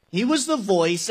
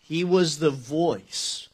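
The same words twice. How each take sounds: First: Said in the usual way. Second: Slow, weighty, each word set apart; measured preacher's emphasis; slow emphatic repeat. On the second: Shown as a demonstration. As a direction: lean on it slowly so it sinks in. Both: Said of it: "underline that word voice".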